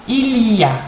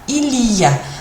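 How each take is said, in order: No difference in how they are said.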